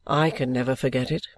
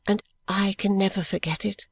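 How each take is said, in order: First: Lightly voiced young man, lower; a hint of Richard, low and earnest; Richard's line. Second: Ada in the reader's own pitch; just a hint of a young woman echoing; Ada's line. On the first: Richard answers his guardian, in a lightly lowered voice. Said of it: "said Richard". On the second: Ada echoes Richard to her guardian, in a barely voiced young woman. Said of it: "said Ada". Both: A narrator's reading.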